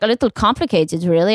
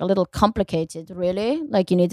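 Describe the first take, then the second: First: A hint of German accent; mock German woman. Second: Quiet, muttered hint of a German accent; lightly put-on German accent, under the breath; mock German woman. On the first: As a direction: imitate a doubtful German woman, plainly voiced. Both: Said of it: "I'm making her German".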